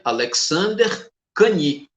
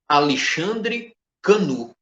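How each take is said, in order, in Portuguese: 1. O nome é dito com sons franceses. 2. O nome é lido com sons portugueses.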